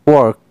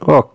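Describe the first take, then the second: First: It is said in a non-British accent. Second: It is said in a British accent.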